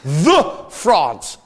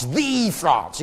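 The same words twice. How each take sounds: First: "The" said as a heavy, drawn-out "thuh"; stress on THE. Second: "The" drawn out as "thee"; stress on THE. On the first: Mocking what France calls itself, heavy "thuh" on "The". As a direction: punch "The", pause, then "France". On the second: Mocking what France calls itself, long "thee" for "The". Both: Shown as a demonstration.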